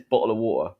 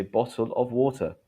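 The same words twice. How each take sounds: First: "bottle of water" with the T's cut, London style. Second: "bottle of water" with clear T's and a full "of"; T's pronounced. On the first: Teacher showing what nobody says, "bottle of water" with T's cut. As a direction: say "bottle of water" quickly, glottal stops for T's. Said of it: "They don't cut the T's". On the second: Teacher showing the usual form, "bottle of water" with T's sounded. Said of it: "we say bottle of water". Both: Shown as a demonstration.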